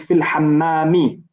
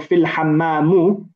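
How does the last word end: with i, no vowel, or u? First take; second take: i; u. First: The last word ends with a final i vowel. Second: The last word ends with a final u vowel. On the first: The learner has understood the ruling. The speaker calls it right. "We'll say fil hammami" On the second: The learner has forgotten the ruling. The speaker calls it wrong. "you've forgotten or you've not understood the ruling"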